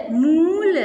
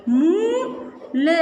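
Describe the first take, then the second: First: Said in the usual way. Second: मूल stretched very slowly; teacher sounding out मूल slowly. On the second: Shown as a demonstration. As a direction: draw out मूल for the class. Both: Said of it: "बड़े ऊ की मात्रा".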